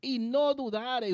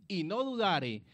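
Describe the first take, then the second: First: "no" in "Y no dudare" slowed and leaned on; deliberate emphasis on "no dudare"; slow stress on no. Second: Said in the usual way. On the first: Shown as a demonstration. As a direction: press the word "no" slowly. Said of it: "Observe dónde está la clave".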